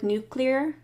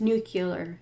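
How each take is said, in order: First: The word has no extra vowel inserted. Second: An extra vowel is inserted in the middle. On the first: This is the standard way of saying it. "with nuclear" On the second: This is the local Michigan way of saying it. "it's nuclear. It sounds really odd to someone not from Michigan"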